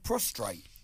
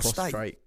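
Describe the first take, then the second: First: An extra R sound follows the T. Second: No R sound follows the T. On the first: The speaker calls it wrong. "I've always said prostrate" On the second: The speaker calls it right. "And it's"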